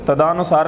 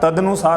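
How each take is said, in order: First: A long 'aa' vowel follows 'tad'. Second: A short vowel follows 'tad'. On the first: The speaker calls it wrong. "तदानुसार नहीं होता" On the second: The speaker calls it right. "तदनुसार होता है"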